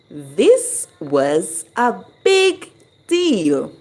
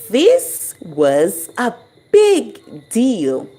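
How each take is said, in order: First: The stress falls on the word deal. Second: The stress falls on the word big.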